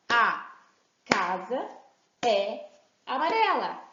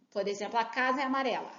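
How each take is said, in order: First: "A", "casa", "é amarela" each set apart by pauses; word by word. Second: Said in the usual way. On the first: Shown as a demonstration. Teacher showing children the words one by one, with pauses. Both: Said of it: "fala uma frase e peça pra bater palma".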